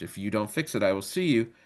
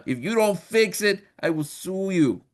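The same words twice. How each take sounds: First: Said in the usual way. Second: Slow, high, hammed-up Italian accent; mock Italian accent. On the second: God threatening to sue the devil, hammed-up mock Italian accent. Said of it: "why God is Italian in this joke".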